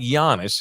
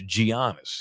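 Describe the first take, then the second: First: The name is not said as it is spelled. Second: The name is said as it is spelled. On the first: The speaker calls it wrong. "It's not like Giannis" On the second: The speaker calls it right. "pronounces the letters like a decent human being"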